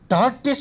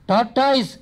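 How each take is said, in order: First: The word ends with a short 'es' sound. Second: The word ends with an 'oys' sound. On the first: The speaker calls it right. "ಟಾರ್ಟೆಸ್ ಎಂದು ಹೇಳಿಕೊಟ್ಟವನು" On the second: The speaker calls it wrong. "ನಾನು ಬಹಳ ದಿನ ಟಾಟಾಯ್ಸ್ ಎಂತಲೇ ಉಚ್ಚರಿಸುತ್ತಿದ್ದೆ. ... ಅದು ತಪ್ಪು"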